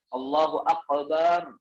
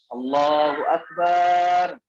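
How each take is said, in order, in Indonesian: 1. K dibaca seperti bunyi q yang dalam. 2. Vokal setelah b dibaca panjang. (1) "atau pakai qaf. ... ini juga salah" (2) "Babnya dipanjangkan. Ini salah"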